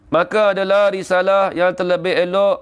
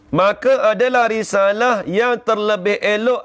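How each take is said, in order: First: The phrase is read quickly straight through. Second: The phrase is read slowly with clear breaks. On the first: The text is hard to understand this way. The speaker calls it wrong. "kalau kita baca cepat-cepat, memang tak faham. Kalau saya baca gini" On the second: The text becomes easier to follow. The speaker calls it right. "saya ulang balik"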